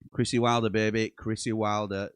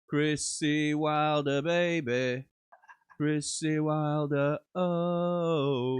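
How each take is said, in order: First: It is read out flatly. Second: It is read out excitedly.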